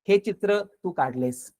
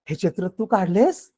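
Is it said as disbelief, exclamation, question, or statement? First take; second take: statement; exclamation. First: It is said as a plain, neutral statement. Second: It is said as an excited exclamation. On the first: It simply states that you drew this picture. "साधा अर्थ" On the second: It expresses surprise or admiration at the picture. "उद्गार"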